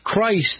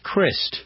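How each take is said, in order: First: The word is said fully, like the name Christ. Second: The word is said softened, like a casual slip. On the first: This is the proper name. The speaker calls it right. "Christ is his name" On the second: The name has been worn down carelessly. The speaker calls it wrong. "the slip of the tongue make it almost a softer word"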